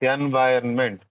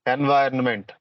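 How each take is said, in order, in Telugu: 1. రెండవ అక్షరం 'vai' లా అంటారు. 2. రెండవ అక్షరం 'vai' లా అంటారు.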